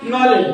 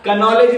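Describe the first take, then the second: First: The word starts directly with the n sound. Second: A K sound is pronounced before the n. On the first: The speaker calls it right. "हा के silent होतो" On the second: The speaker calls it wrong. "कनॉलेज नाही म्हणत"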